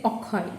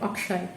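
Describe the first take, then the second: First: It starts with 'o' and has a 'kh' sound. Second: It starts with 'a' and has a 'ksh' sound. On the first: This is the local form of the name. "this is how we will pronounce it in Bangla" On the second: This is the name's original form. "the Hindi Akshay"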